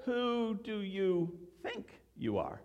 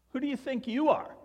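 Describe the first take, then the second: First: Slow "Who do you THINK you are?" with a pause round "think"; stress on THINK. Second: Higher, quick "Who do you think YOU are?" as an affronted challenge; challenging intonation. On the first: Pastor giving the intonation he wants for the series, "think" stressed. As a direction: ask it slowly and thoughtfully, leaning on "think". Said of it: "that's the intonation that I, that I want". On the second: Pastor showing how he always heard it, "you" challenged. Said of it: "the intonation is important here". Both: Shown as a demonstration.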